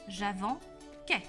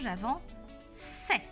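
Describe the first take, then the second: First: The c before the ending sounds like k. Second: The c before the ending sounds like s. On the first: The speaker calls it wrong. "si je lis correctement, je vais lire j'avance-quai. Mais je ne veux pas" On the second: The speaker calls it right. "je veux j'avance-c'est"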